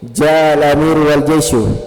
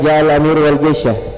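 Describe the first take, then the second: First: The last word ends with a 'u' vowel. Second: The last word ends with an 'a' vowel. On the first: The leader and the army came. "ganti syanya menjadi syu" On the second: The leader came together with the army. "yang asalnya dibaca fathah"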